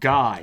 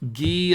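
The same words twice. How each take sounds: First: The name is said with an English pronunciation. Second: The name is said with a French pronunciation. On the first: The speaker calls it wrong. "my name isn't pronounced Guy" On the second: The speaker calls it right. "That's sounds pretty French"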